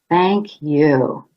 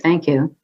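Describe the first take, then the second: First: It sounds deeply sincere and warm. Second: It sounds polite but empty.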